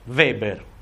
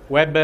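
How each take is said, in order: First: The name begins with a V sound. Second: The name begins with a W sound. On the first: It refers to the German sociologist. "questa si pronuncia V" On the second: It refers to the composer of a musical. "quello che ha scritto Jesus Christ Superstar"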